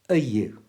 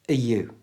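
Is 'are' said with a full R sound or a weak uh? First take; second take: weak uh; weak uh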